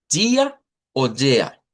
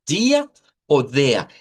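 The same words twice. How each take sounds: The two takes are said the same way.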